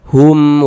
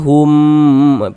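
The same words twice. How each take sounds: First: The word is said short and crisp. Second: The word is drawn out long. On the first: The speaker calls it right. "pendek saja. Hum wahum, nah begitu" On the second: The speaker calls it wrong. "jangan dibaca hum, panjangkan begitu, jangan salah"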